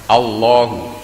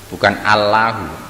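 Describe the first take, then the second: First: The L is heavy and dark, thickly pronounced. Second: The L is light and clear, thinly pronounced. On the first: The speaker calls it right. "dibaca tebal, tafkhim" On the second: The speaker calls it wrong.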